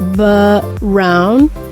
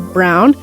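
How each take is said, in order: First: A short vowel sound is slipped in before the R. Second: The B runs straight into the R. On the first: "So it's almost brown" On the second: "there shouldn't be anything in between. It should be brown"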